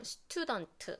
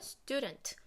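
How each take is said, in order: First: It is said as flat Korean-style syllables. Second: It is said with native English sounds and stress. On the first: The speaker calls it wrong. "그냥 스튜던트, 스튜던트 이렇게 하는 게 아니라" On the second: The speaker calls it right. "원어민 발음과 악센트를 똑같이 따라하는 것"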